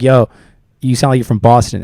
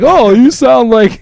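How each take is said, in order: First: Imitating a dismissive, not nice remark; retold insult. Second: High, loud, drawn-out fake compliment; exaggerated sweet, impressed tone; mock nice version. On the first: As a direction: say it quickly as an unfriendly jab. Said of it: "they didn't mean it in a nice way". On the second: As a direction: gush slowly as if it were flattering. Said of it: "They didn't mean like".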